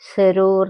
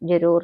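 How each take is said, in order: First: The word begins with a z sound. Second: The word begins with a j sound. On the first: "സെരൂർ എന്നാണ് കേട്ടോ പറയുക ജായുടെ താഴെ ഒരു ബിന്ദു ഇട്ടാൽ ജായുടെ ശബ്ദം സ ആയിട്ട് മാറും" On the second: "ജരൂർ എന്ന് പറഞ്ഞാൽ"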